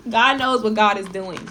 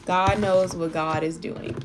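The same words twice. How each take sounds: First: Louder, starting with a laugh; laughing reassurance to viewers. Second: Slow, deliberate repeat with stress on "knows"; slow, serious repeat to make it sink in; slow emphatic repeat. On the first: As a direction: say it bright, laughing into the words. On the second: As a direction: lean on "knows" and slow it right down. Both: Real, not acted.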